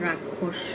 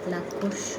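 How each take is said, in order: First: The word begins with an R sound. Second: The word begins with an L sound. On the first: This is the standard form used elsewhere. "আপনারা বলেন রাক্ষস" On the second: This is the Chittagong regional form. "চিটংয়ের ভাষায় রাক্ষসকে বলে লাক্ষস"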